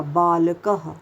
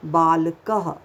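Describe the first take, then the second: First: बालकः drawn out slowly as baalakaha; teaching it slowly; slow visarga. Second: बालकः said as baalak-ha with a clear ह; visarga h ending. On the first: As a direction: stretch बालकः and sound the final ह. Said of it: "किसका आखिर में sound आया". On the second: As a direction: give बालकः a full breathy ह at the end. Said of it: "इसका sound कैसे होता है". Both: Shown as a demonstration.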